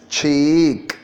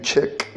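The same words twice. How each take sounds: First: "cheek" with a long, drawn-out ee; long EE vowel. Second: Short clipped vowel, as in chick; mispronounced cheek. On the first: Shown as a demonstration. Teacher correcting a student's vowel, "cheek" with long ee. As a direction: stretch the ee in "cheek" before the k. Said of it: "with the eek". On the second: Retold or imitated. Teacher echoing the student's mistake, "chick" with short vowel. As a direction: say "chick" with a short i instead of a long ee. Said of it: "You're saying chick".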